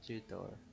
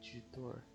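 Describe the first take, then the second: First: It is said in a Filipino English accent. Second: It is said in a Filipino English accent.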